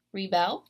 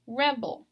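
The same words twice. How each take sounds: First: "rebel" as the verb, ree-BEL; "rebel" rising onto a stressed second syllable; last-syllable stress. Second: "rebel" as the noun, REB-ul; "rebel" with a strong first syllable, weak ending; first-syllable stress. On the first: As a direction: hit the end of "rebel": -BEL. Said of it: "you're stressing the last syllable". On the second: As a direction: hit the start of "rebel": REB. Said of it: "stressing the very first syllable". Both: Shown as a demonstration.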